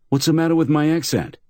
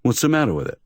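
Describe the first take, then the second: First: High, pressing indignation; mildly indignant insistence. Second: High, mildly offended; a touch of wounded pride; injured tone. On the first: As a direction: demand an answer, affronted. Tall man insists again. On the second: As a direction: defend yourself, a little hurt. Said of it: "in an injured tone". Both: Acted.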